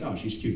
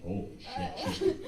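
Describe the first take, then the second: First: Said in the usual way. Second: Much softer, stunned murmur; hushed awe. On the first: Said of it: "you're not just like". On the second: Acted. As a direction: say it under your breath, awestruck. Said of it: "You're just like".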